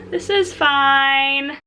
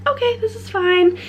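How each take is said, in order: First: Slow, drawn-out self-reassurance; forced calm. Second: High-pitched, strained self-reassurance; forced calm. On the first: New mom reassuring herself in the store, slow forced calm. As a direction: stretch it out, trying to convince yourself. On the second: New mom telling herself as baby wakes, forced calm. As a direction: insist all is okay in a high voice. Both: Retold or imitated.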